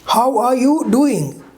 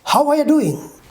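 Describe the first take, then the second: First: Every word is said fully and separately. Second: The words are shortened and run together.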